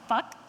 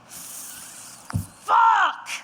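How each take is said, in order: First: The opening f sound is short and plain. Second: The opening f sound is long and drawn out. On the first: "just a plain old fuck" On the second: "Like when you stub your toe on the corner of your kitchen table. That drawn out fricative in the beginning"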